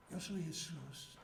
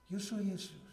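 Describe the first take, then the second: First: Softer answer with an unusual tone; hushed divine reply. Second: Said in the usual way. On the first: Retold or imitated. Jesus answering the kneeling preacher, hushed. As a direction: let "Yo soy Jesús" fall soft and otherworldly.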